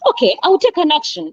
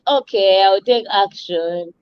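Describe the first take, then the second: First: It is said eagerly, with high energy. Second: It is said reluctantly, with low energy.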